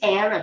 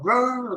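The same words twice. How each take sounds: First: The word is said with an English pronunciation. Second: The word is said with a French-like pronunciation. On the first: The speaker calls it right. "This is error" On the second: The speaker calls it wrong. "not error"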